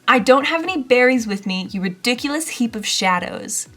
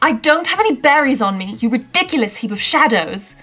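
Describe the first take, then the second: First: It is read in the speaker's own accent. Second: It is read in a posh English accent.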